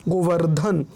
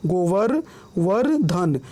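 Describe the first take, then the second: First: Said in the usual way. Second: गोवर-, then वर्धन, broken into parts with pauses; split pronunciation. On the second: Shown as a demonstration. Teacher showing reph sounds before ध, गोवर-, वर्धन in parts. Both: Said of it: "पहले रेफ उच्चारण आएगा".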